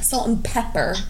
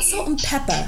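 First: The final R sound is pronounced clearly. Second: The final R sound is dropped. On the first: "She said it with the hard R" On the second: "She's not"

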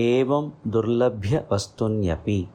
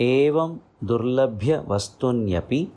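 No difference in how they are said.

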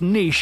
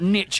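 First: The word is said with a French-style pronunciation. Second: The word is said with an American pronunciation. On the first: The speaker calls it right. "It's a French word" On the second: The speaker calls it wrong. "Not niche, America"

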